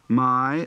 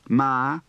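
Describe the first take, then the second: First: The vowel glides from ah to ee. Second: The vowel is a single flat ah.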